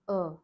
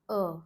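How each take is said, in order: First: The vowel is said with a closed mouth. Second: The vowel is said with a closed mouth.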